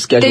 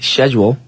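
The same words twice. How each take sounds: First: It is said with an American pronunciation. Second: It is said with a British pronunciation.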